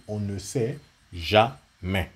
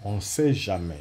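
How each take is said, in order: First: "on ne sait jamais" said slowly, each word weighed, stress on "sait"; slow, deliberate emphasis. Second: Said in the usual way. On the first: Shown as a demonstration. Teacher repeating a warning to viewers, slow and emphatic. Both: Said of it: "J'ai bien dit".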